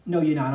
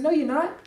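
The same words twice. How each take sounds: First: "No, you're not" dropped lower with a falling stress on "No"; falling firm no. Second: "No, you're not" with a rising pitch on "you're", raised up high; rising retort. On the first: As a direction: settle it low and final on "No". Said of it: "I'm sorry". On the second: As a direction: push "you're" upward like an indignant question. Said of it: "And I said". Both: Retold or imitated.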